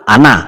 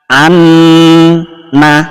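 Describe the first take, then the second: First: The n sound is not held at all. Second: The n sound is held for two beats. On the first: The speaker calls it wrong. "jangan langsung ana, salah" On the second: The speaker calls it right. "Tahan dua ketukan"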